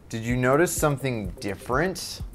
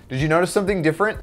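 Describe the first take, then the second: First: It is said in a condescending tone. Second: It is said in a friendly tone.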